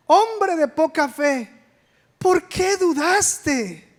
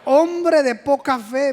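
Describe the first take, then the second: First: A slow, lightly scolding Jesus; mild scolding. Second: Said in the usual way. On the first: Retold or imitated. Jesus rebukes Peter for doubting, slow mild scolding. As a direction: drag it out like a gentle rebuke. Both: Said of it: "lo estaba regañando".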